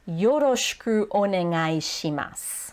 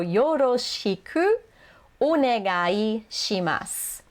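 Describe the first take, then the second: First: It is said fast, with some vowels dropped. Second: It is said slowly, with every vowel clear.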